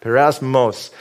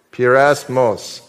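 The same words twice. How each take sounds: First: Pyrasmos with the weight on the final -mos; stress on last syllable. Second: Pyrasmos drawn out slowly, syllable by syllable; slow model pronunciation. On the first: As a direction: land the beat on the end of Pyrasmos. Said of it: "the emphasis is on the last syllable". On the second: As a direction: say Pyrasmos slowly for the room to repeat. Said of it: "So, say that with me". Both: Shown as a demonstration.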